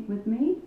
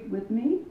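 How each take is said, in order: No difference in how they are said.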